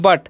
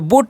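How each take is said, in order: First: The vowel sounds like the one in cut. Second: The vowel sounds like the one in put. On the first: The speaker calls it right. "यू का जो उच्चारण है यहाँ पर अ होता है" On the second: The speaker calls it wrong. "बुट नहीं पढ़ना है"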